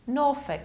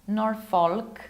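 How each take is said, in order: First: The final syllable is reduced and weak. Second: The final syllable is a full 'folk'. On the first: The speaker calls it right. "We have to reduce it" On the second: The speaker calls it wrong. "It's not Norfolk"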